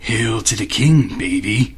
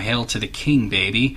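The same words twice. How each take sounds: First: It is said in a gruff Duke Nukem-style voice. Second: It is said in his normal reading voice.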